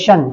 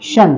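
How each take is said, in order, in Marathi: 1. शेवट 'sh' आवाजाने उच्चारला जातो. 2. शेवट 'sh' आवाजाने उच्चारला जातो.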